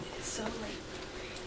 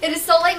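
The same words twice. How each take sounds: First: Breathless whisper, drawn out slowly. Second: Said in the usual way. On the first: Acted. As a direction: breathe it out before speaking aloud.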